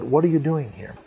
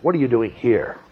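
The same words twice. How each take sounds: First: The question sounds gentle and not condemning. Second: The question sounds accusing and condemning. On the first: The listener is invited to reflect on being here. The speaker calls it right. "I don't think it was condemning" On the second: The listener should not be here. The speaker calls it wrong. "As though you shouldn't be here"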